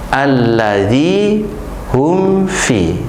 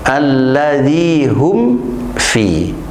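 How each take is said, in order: First: The lips do not close before f. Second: The lips close on the m before f. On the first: The speaker calls it wrong. "Jangan sampai ... Itu yang salah" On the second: The speaker calls it right. "mulutnya tertutup terlebih dahulu, kemudian mengucapkan huruf berikutnya"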